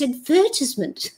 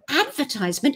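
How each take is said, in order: First: It is said in a British way. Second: It is said in a Canadian way. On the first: The speaker calls it right. "it's advertisement" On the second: The speaker calls it wrong. "I was saying advertisement"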